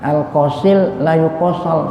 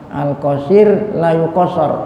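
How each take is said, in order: First: The r sounds are replaced with l sounds. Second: The r sounds are pronounced as clear r. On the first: The speaker cannot pronounce R. "orang yang cadel kira-kira bisa nggak nih?" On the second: The speaker can pronounce R normally. "Orang yang lidahnya nggak cadel, nggak pelu, gampang"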